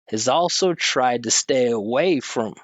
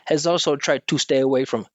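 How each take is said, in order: First: The pitch moves up and down with long and short syllables. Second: The pitch stays flat and syllables are even. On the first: The speaker calls it right. "you hear the pitch going up and down, and there's short and there's long" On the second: The speaker calls it wrong. "instead of"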